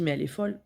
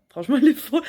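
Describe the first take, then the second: First: Said in the usual way. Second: Higher and louder, laughing; laughing disbelief. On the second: Retold or imitated.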